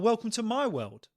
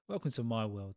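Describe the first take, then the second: First: The tone sounds dismissive and self-focused. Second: The tone sounds warm and sympathetic. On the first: My own troubles are worse than yours. The speaker calls it wrong. "come off as a tad dismissive... Can you see how the different tone makes a difference?" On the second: I understand because I went through it too. The speaker calls it right. "used in the correct way, it can be quite empathetic and understanding"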